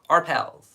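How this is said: It is said in an American accent.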